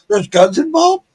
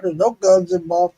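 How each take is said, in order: First: High rising alarmed echo; startled question. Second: Said in the usual way. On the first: Retold or imitated. Echoed back as a startled question.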